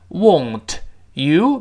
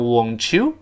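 First: The t and y sounds are said separately. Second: The t and y merge into a ch sound.

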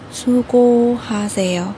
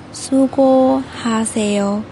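No difference in how they are said.

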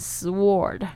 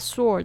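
First: The W is pronounced in the word. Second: The W is silent in the word. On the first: The speaker calls it wrong. "你不要念成sword 因为它那个W 其实是没有发音的哦" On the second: The speaker calls it right. "大家特别注意一下sword 的这个声音呢"

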